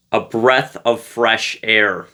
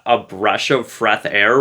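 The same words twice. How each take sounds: First: "breath of fresh air" said slowly, each word clearly articulated; "breath" and "fresh" pronounced distinctly, at an unhurried pace; careful self-correction. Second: "breath of fresh air" garbled into "brush of freth air"; slowly mock your slip, "breath" turned into "brush"; "fresh" lisped as "freth", "breath" said as "brush"; repeated tongue slip. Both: Shown as a demonstration. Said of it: "you can make fun of me for that".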